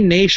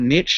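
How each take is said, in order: First: It is said in a non-American pronunciation. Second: It is said in an American pronunciation.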